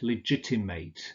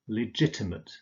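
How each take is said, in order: First: The final syllable is pronounced like 'ate'. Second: The final syllable is pronounced like 'ut'. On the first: It is used as a verb. "you always pronounce it ate" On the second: It is used as an adjective. "when legitimate turns into an adjective, you use ut"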